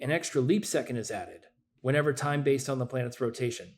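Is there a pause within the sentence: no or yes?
yes. There is a pause inside the sentence. The speaker calls it wrong. "I'm going to say it both ways"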